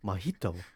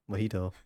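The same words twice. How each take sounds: First: It has an exaggerated, overdone foreign accent. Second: It has a plain, ordinary American accent. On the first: The speaker calls it wrong. "a kind of overly done ac uh, accented way" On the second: The speaker calls it right. "like normal"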